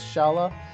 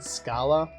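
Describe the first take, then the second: First: The name begins with an sh sound. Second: The name begins with an sk sound. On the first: The speaker calls it right. "I believe it's Shala" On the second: The speaker calls it wrong. "As a kid, I'd always pronounced it Scala. Don't believe that's correct"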